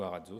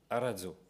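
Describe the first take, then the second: First: The name is said with a French accent. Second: The name is said with an Italian accent.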